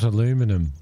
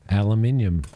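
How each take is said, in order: First: It uses the other, foreign pronunciation of the word. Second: It uses the speaker's own local pronunciation of the word. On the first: This is how people elsewhere say it. The speaker calls it wrong. "Not aluminum" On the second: This is how people here say it. The speaker calls it right. "Like the way we say aluminium"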